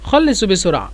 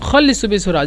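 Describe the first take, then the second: No difference in how they are said.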